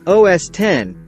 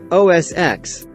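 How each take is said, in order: First: The final part is said as the number ten. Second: The final part is said as the letter ex. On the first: The speaker calls it right. "It's actually said O S X, because of the fact that it is the tenth operating system" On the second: The speaker calls it wrong. "That's the wrong pronunciation"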